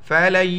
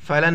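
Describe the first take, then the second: First: The n merges into the following y sound. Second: The n sound is clearly pronounced. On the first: The speaker calls it right. "لام یا کے ساتھ پلس ہو جائے گا" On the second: The speaker calls it wrong. "فلن نہیں پڑھیں گے اس کو"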